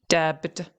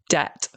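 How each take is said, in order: First: A b sound is pronounced before the t. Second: No b sound is pronounced before the t. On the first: The speaker calls it wrong. "a lot of people are trying to pronounce the B" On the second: The speaker calls it right. "That's the correct pronunciation"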